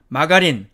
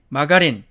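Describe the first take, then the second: First: It is said with Korean loanword pronunciation. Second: The same.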